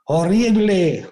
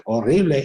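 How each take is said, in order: First: High, slow call into the cave; a boy shouting to hear the echo; child calling out. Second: Quicker echo of the word, without the call; the cave echo answering the boy; mock echo. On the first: Retold or imitated. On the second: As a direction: toss it back like a cave echo.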